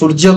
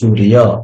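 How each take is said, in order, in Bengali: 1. মাঝের ব্যঞ্জনটি 'j' হিসেবে উচ্চারিত হয়। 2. মাঝের ব্যঞ্জনটি 'y' হিসেবে উচ্চারিত হয়। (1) "ଆମେ ସୂର୍ଯ୍ୟ କହିଥାଉ" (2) "ସେମାନେ କହିଥାନ୍ତି"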